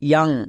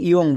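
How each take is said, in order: First: The vowel is an open 'ah' sound. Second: The vowel is a rounded 'o' sound. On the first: The speaker calls it right. "ও ইউ এর জন্য আ" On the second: The speaker calls it wrong. "একে অনেকে ভুল করে ইয়ং বলে"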